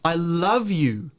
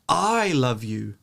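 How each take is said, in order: First: The stress is on the word love. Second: The stress is on the word I. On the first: It is love, not hate or regret. "The love is now stressed" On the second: It is me, not someone else, who loves you. "If you stress the first term"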